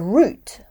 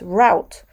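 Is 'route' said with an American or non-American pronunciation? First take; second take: non-American; American. First: The word has a non-American pronunciation. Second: The word has an American pronunciation. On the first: "for me, root has two spellings" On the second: "would be pronounced route by a speaker of American English"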